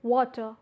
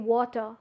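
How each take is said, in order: Both takes have the same delivery.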